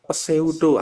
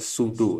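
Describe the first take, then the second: First: The word begins with an audible P sound. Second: The word begins with an S sound, no P. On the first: The speaker does not seem to be an engineer. The speaker calls it wrong. "alah itu udah kayaknya bukan orang teknik" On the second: This is how engineers say it. The speaker calls it right. "P-nya ditinggal aja"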